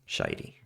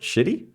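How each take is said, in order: First: The name does not sound like 'shitty'. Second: The name sounds like the word 'shitty'. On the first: The speaker calls it right. "So I was saying it right the first time" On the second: The speaker calls it wrong. "Is that how you're supposed to pronounce it? Shitty? Is that the joke?"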